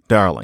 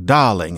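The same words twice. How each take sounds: First: The R sound is pronounced. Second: The R sound is dropped. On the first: "instead of darling" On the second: "or darling"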